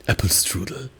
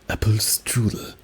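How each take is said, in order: The two takes are said the same way.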